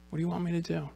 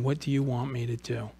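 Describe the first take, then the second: First: Hushed, slightly lifted, intimate asking; soft question. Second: Said in the usual way. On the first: Acted. Jesus asks the blind man near him, softly. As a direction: ask it very softly, as if to one person.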